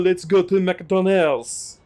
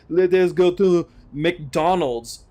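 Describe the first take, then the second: First: The words let us are contracted together. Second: The words let us are said in full. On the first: This is how people actually talk. The speaker calls it right. "Oh, let's go to McDonald's" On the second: It sounds overly formal. The speaker calls it wrong. "Hey, let us go to McDonald's"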